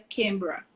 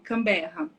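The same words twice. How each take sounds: First: It is said the Australian way, shortened. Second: It is said the Brazilian way, in full.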